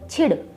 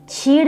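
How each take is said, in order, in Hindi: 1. स्वर को छोटा रखा जाता है। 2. स्वर को लंबा खींचा जाता है। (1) "छोटी सी आवाज निकालनी है" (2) "छीड़ नहीं बोलेंगे, मात्रा को लंबा नहीं खींचेंगे"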